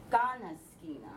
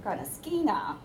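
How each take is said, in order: First: Native Blackfoot pitch fall; native pitch on first syllable. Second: Ganaskina said English style with stress on a later syllable; anglicized pronunciation; English learner version. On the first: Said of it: "accents goes on the first one". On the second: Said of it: "it sounds like". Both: Shown as a demonstration.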